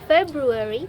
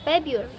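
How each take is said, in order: First: The first R sound is fully pronounced. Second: The first R sound is left out. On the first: "instead of saying February" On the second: "the first R disappeared"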